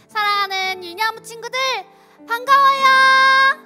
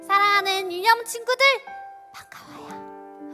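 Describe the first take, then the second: First: The greeting is said loudly. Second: The greeting is said quietly.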